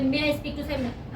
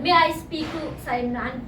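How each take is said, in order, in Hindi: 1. यह जल्दी-जल्दी, हड़बड़ी में बोला गया है। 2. यह शांत तरीके से, आराम की रफ़्तार में बोला गया है। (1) "जरूरी नहीं है कि आप इतने जल्दी बोले" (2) "इस तरह बोलना है एक्सप्रेशन के साथ"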